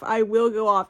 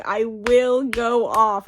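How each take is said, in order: First: Said in the usual way. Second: Slow, stressed "will"; drawn-out "I will go off" with "will" stressed; emphatic threat. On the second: Real, not acted. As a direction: lean hard on "will".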